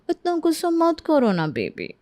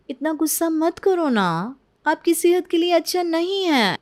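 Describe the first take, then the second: First: Cooing. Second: Sweet coaxing. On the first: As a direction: pout and sweet-talk him. Bride coaxes husband. (लाड़ से baby कहती पत्नी) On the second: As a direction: soothe her with fake sweetness. Bride coaxes mother-in-law. (मीठी बनावटी मनुहार) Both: Acted.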